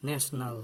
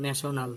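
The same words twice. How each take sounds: First: "National" as NESH-nal, two syllables; correct pronunciation. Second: "national" as ne-sho-nal, three syllables; wrong pronunciation. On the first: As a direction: squeeze "National" to NASH-nul. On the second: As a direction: put a full o in the middle of "national". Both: Shown as a demonstration. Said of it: "not national".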